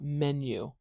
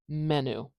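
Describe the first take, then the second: First: The final vowel has a y sound before it. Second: The final vowel has no y sound before it. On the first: The speaker calls it right. "and we want" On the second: The speaker calls it wrong. "If we forget the y, this is going to sound like"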